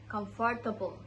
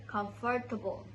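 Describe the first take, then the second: Both takes have the same delivery.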